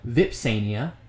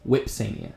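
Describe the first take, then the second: First: The name begins with a V sound. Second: The name begins with a W sound. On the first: "It's spelt with a V" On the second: "in Latin, Vs are pronounced as Ws"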